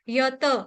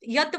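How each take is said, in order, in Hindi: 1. अंतिम t के बाद पूरा स्वर है। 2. अंतिम t के बाद कोई स्वर नहीं है। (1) "त पूरा है" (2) "यत बोलने से त आधा हो जाएगा, हलंत हो जाएगा"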